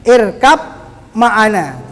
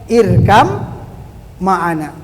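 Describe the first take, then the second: First: A clear b sound ends the first word. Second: The b merges into a long m sound. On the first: This is the plain Arabic reading outside recitation. "kalau bahasa Arabnya tidak dalam Al-Qur'an" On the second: This is the recitation reading following tajwid rules. "kalau kita di dalam bacaan kita memakai tajwid"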